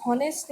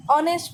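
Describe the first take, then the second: First: हॉनेस्ट with a sounded h at the start; wrong pronunciation. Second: ऑनेस्ट with silent h, starting on the vowel; right pronunciation. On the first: Teacher to class, showing the wrong हॉनेस्ट with h. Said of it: "हॉनेस्ट नहीं पढ़ते". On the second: Teacher to class, demonstrating ऑनेस्ट with silent h. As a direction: say ऑनेस्ट without any h sound. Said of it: "ऑनेस्ट पढ़ते हैं". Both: Shown as a demonstration.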